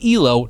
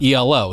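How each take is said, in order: First: It is said as one word. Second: It is spelled out as separate letters. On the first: It names the chess-style rating score. The speaker calls it right. "It is E L O" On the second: The speaker calls it wrong. "not E L O, so not Mister Blue Sky"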